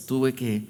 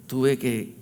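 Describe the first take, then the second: No difference in how they are said.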